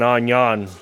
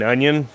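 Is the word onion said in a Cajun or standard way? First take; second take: Cajun; standard. First: The word is said like onyon, Cajun-style. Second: The word is said with a standard pronunciation. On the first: "my grandmother is Cajun, ... she always said" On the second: "instead of saying onion"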